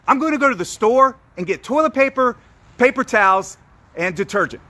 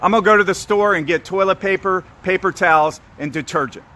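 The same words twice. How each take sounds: First: It is said with lively energy and varied inflection. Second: It is said flatly, with little energy or inflection. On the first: The speaker is excited and passionate about the story. The speaker calls it right. "The second way has an inflection change in my voice. It has an energy and a cadence" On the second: The speaker seems uninterested in the story. The speaker calls it wrong. "that's the first way"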